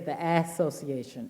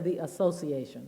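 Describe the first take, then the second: First: The first syllable is heavily emphasized. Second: The first syllable gets no special emphasis. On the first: "they put a lot of emphasis on the ass association" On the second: "They do not say the association"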